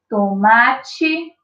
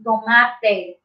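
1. A vogal final soa como 'ee'. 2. A vogal final soa como 'eh'. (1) "escutem bem aqui a minha leitura" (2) "Eu não vou ler a palavra tomate assim"

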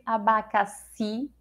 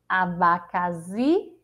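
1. O x soa como s. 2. O x soa como z. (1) "ou é o som do si" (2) "xi é o som do Z"

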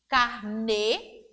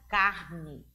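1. A tônica está na última sílaba. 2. A tônica está na primeira sílaba.

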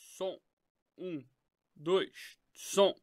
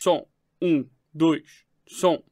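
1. A voz foi gravada em um nível muito baixo. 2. A voz foi gravada em um nível forte. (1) "Ainda tá muito baixo" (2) "Pronto, é esse pico aqui que eu quero"

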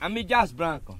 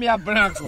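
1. A letra M é falada antes de Dias. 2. O M e Dias se juntam em uma sílaba. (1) "Veja a pronúncia certa do grupo" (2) "Eu disse Mias Branco"

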